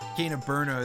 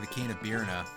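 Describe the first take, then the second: First: The name's first syllable sounds like 'bur'. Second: The name's first syllable sounds like 'beer'. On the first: This is the usual way to say it. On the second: This is how it was said in childhood.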